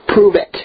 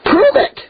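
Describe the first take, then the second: First: Said in the usual way. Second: PROVE it flung up much higher, rising; challenging repeat. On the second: Real, not acted. Preacher daring her followers, pitched high and rising. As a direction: hit "Prove" hard and let it climb. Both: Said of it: "if this ministry has blessed you in any way".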